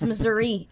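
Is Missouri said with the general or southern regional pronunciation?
general. It has the general pronunciation used elsewhere. The speaker is from elsewhere in the state. "It's Missouri everywhere else"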